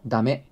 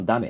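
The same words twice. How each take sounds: First: ダメ demonstrated in standard Tokyo intonation; a textbook standard-Japanese ダメ. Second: ダメ demonstrated with Kansai pitch accent; a native Kansai ダメ, not standard; Kansai intonation. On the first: Host demonstrates the non-Kansai version, standard Japanese intonation. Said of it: "標準語のダメ". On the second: Host contrasts it with standard speech, Kansai intonation. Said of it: "関西のダメっていうのちゃう". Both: Shown as a demonstration.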